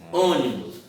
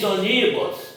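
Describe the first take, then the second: First: The stress falls on the first syllable. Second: The stress falls on a later syllable. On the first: The speaker calls it right. "Não, você diz ônibus" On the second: The speaker calls it wrong. "Você diz ônibus?"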